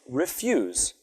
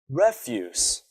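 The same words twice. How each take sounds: First: The stress is on the second syllable. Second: The stress is on the first syllable.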